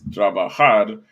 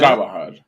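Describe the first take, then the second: First: The stress falls on the last syllable. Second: The stress falls before the last syllable. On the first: The speaker calls it right. "all verbs in Spanish are stressed on the very last syllable, which is why it's trabajar" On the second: The speaker calls it wrong.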